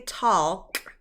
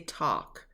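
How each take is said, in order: First: The L sound is pronounced in the word. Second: The L sound is silent in the word. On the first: The speaker calls it wrong. "We don't say talk" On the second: The speaker calls it right. "but we say talk"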